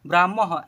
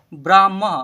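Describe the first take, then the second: First: ब्राह्म said as braam-maha, breath of h at the end; visarga ending. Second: ब्राह्म said loudly as braam-ma, open ending; model pronunciation. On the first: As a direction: finish ब्राह्म on an aha sound. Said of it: "अह है last में". (ब्राह्म के अंत में अह का उच्चारण) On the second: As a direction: punch out ब्राह्म without a final h. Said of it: "ऐसे पढ़ेंगे". (ब्राह्म का ज़ोरदार उच्चारण, ब्राम्म) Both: Shown as a demonstration.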